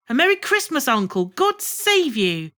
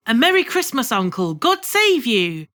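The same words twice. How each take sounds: First: High, ringing greeting to the uncle; cheerful cry. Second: Cheerful cry. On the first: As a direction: throw out a happy Christmas greeting. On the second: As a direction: call out a happy Christmas greeting. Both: A narrator's reading. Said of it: "cried a cheerful voice".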